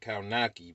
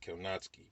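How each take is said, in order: First: The name is said the way it is spelled. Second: The name is said the Polish way. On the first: The speaker calls it wrong. "You say you say his name is Adam Kownacki, but it's not" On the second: The speaker calls it right. "It's Kownacki"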